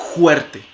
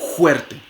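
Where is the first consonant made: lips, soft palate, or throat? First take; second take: soft palate; soft palate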